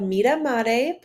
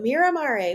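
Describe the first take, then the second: First: The name is said with Italian pronunciation. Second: The name is said with English pronunciation.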